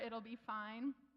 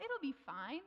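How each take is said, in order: First: It is said hesitantly and nervously. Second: It is said lightly and casually. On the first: The outcome is doubtful. "the way you say it'll be fine. When you're not sure" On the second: There is nothing to worry about. "we had this lightness and flippancy to it"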